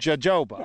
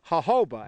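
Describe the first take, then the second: First: The word starts with a J sound. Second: The word starts with an H sound.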